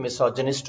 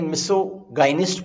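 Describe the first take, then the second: First: Misogynist said as "mi-SOJ-uh-nist"; corrected pronunciation. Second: Misogynist read as "miso-GAI-nist"; hard g and "eye" vowel in misogynist; common mispronunciation. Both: Shown as a demonstration. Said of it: "pronunciation थोड़ा ठीक करना चाहें".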